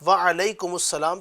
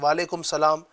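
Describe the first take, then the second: First: The words are joined with an 'us' sound. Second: The two words are said without a joining 'us'. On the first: The speaker calls it right. "दुरुस्त इन अदा से" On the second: The speaker calls it wrong. "इस तरह नहीं"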